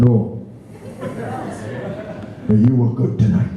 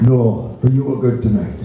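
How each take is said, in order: First: Put-on a light Welsh lilt, an old man's gentle reply; lightly voiced elderly Welshman in a Welsh accent. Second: The same Welsh line again, a little more lilt; a hint of a Welsh old man, lightly voiced; Welsh accent. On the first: Welsh pensioner answering the singer after the show, in a mild Welsh accent. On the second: Welsh pensioner repeating his verdict to the singer, in a light Welsh accent. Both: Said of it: "Now that is a Welsh accent".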